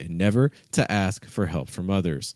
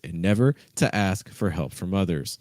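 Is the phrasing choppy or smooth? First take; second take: choppy; choppy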